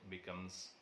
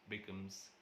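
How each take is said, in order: The two takes are said the same way.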